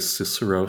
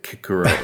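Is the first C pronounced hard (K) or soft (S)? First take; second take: soft; hard. First: The C is said soft, like an S. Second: The C is said hard, like a K. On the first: "like we say Cicero" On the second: "the alternative would be like Kikero"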